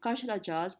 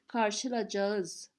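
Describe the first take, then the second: First: The word is said in a shortened, casual form. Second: The word is said in its full form. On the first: This is how people say it in everyday speech. "One is like you say it while speaking, it's like uh, on the road" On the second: This is the grammatical form that people do not actually use. "grammatically, karşılayacağız. This is grammatically, but no one says it"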